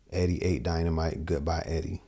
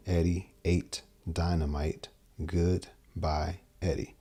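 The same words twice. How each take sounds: First: Said in the usual way. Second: Slow, spaced-out mnemonic, each word separate. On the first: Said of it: "they hang on the". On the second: Shown as a demonstration. Guitar teacher mapping a memory phrase onto strings, slowly word by word. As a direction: recite it slowly, pausing between the words. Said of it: "from here to here".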